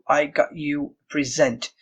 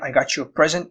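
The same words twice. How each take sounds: First: The stress is on the second syllable of present. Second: The stress is on the first syllable of present. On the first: It means the verb, to present. The speaker calls it wrong. "they might tell you" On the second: It means a gift. The speaker calls it right. "meaning a gift. So the stress falls on the first syllable"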